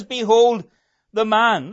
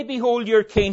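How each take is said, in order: First: "Behold" rings out loud, then "the man" lands with weight; preacher giving Pilate's true words, loud "Behold", stressed "man". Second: Behold your king with the word "your" leaned on; preacher quoting the line Pilate never said, "your" stressed. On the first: Preacher correcting the quote, "man" stressed. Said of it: "He says". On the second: Preacher rejecting the wrong words, stress on "your". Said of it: "He doesn't say". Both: Shown as a demonstration.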